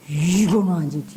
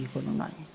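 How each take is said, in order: First: 이거는 아니지 with a falling tune, low and firm; firm denial. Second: 이거는 아니지 repeated almost under breath, rising at the end; soft echo. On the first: Preacher to parents, firm falling denial. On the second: Preacher echoing himself, softly fading. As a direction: let 이거는 아니지 fade to a near whisper. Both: Shown as a demonstration.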